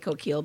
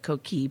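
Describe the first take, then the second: First: The double L is pronounced as an L sound. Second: The double L is silent, with no L sound. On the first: It matches how the spelling looks to English speakers. "I kind of bastardize the French pronunciation" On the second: It is the original French way of saying it. "call it coquille properly. That is the French pronunciation"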